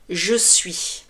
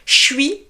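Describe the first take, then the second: First: Both words are said fully and separately. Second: The two words are squeezed into one syllable.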